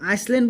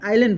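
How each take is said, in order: First: An s sound comes before the l. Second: No s sound comes before the l. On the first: The speaker calls it wrong. "কিন্তু আইচলেণ্ড বুলি উচ্চাৰণ নকৰোঁ" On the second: The speaker calls it right. "এইটো আমি কি উচ্চাৰণ কৰোঁ, আইলেণ্ড বুলি"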